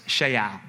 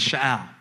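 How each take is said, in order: First: Sha'al with a long 'shay' first syllable; corrected pronunciation. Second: Sha'al with a short, unstressed first syllable; first attempt at pronunciation. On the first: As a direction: say sha'al as SHAY-al. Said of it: "the accent is on the first syllable". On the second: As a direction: say sha'al as shuh-AL. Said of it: "I don't say it right". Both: Shown as a demonstration.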